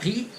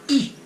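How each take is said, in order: First: The h is pronounced strongly at the start. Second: The h is dropped at the start. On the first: "a gente ensina que o H é um R forte" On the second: "na prática eles vão falar i"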